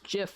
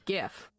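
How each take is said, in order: First: It starts with a J sound. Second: It starts with a hard G sound. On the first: The speaker calls it wrong. "not pronounced GIF like the peanut butter" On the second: The speaker calls it right. "I mean GIF"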